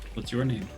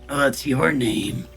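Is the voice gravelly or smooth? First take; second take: smooth; gravelly. First: It is said in a smooth, non-gravelly voice. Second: It is said in a rough, gravelly voice.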